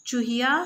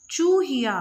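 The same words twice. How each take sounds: First: Said in the usual way. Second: चूहिया with a long, loud, higher ऊ; stressed long oo. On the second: Shown as a demonstration. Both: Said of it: "ज़्यादा वज़न देके बोला है".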